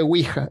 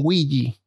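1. Se pronuncia con pronunciación española. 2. Se pronuncia con pronunciación inglesa. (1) "se lee Ouija" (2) "En inglés le dicen Ouija"

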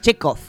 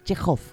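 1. La consonante del medio es un sonido k normal. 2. La consonante del medio es un sonido h gutural. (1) "Que no es Chekhov" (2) "es Chekhov con J"

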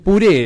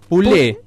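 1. La consonante del medio es un sonido R. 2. La consonante del medio es un sonido L. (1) "A mí me parece puré era" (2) "Problema con la R"

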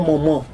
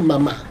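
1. Las vocales se producen por la nariz. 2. Las vocales son orales normales. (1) "produzca esas vocales, ¿no? Por la nariz" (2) "en español tenemos la A"

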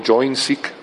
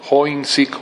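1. El nombre se pronuncia con sonidos ingleses. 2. El nombre se pronuncia con sonidos españoles.

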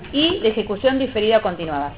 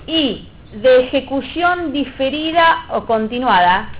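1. La voz baja al final de la frase. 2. La voz se mantiene arriba al final de la frase.

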